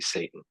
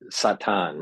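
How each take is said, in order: First: It is said the common English way. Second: It is said the speaker's own community's way. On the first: This is how people generally say it. "people would say" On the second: This is how the speaker's own community says it. "is how we pronounce it"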